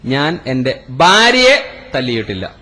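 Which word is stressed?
ഭാര്യയെ. The third word carries the stress. Another person was hit instead. "ഉമ്മാനെയാണ് തല്ലിയത്"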